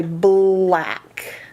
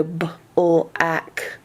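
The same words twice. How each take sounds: First: Black said slowly and blended in one go; smoothly blended. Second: Slow b-l-ak, the b and l pulled apart; choppy unblended. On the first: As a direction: glide the b and l together in black. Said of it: "putting the B and the L together". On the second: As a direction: sound out b-l-ak like a struggling reader. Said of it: "trouble putting the B and the L together". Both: Shown as a demonstration.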